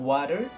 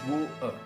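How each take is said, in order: First: It is said in an American accent. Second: It is said in a British accent. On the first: "sepenuhnya bilang water kayak orang Amerika" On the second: "tapi dia hanya bilang water"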